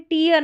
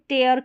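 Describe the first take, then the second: First: The vowel sounds like 'ear'. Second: The vowel sounds like 'air'. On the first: The speaker calls it wrong. "इसको भी टीयर नहीं पढ़ेंगे" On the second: The speaker calls it right. "ये इसका correct उच्चारण है"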